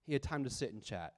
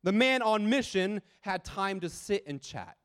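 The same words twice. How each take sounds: First: Lower, much softer echo of the point; soft repeat. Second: Said in the usual way. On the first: Real, not acted. Preacher quietly repeating his point to the congregation, soft and low. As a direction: let it drop, quiet and low.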